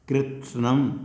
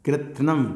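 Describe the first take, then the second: First: The s sound is heard between t and n. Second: The s sound is left out between t and n. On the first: The speaker calls it right. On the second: The speaker calls it wrong.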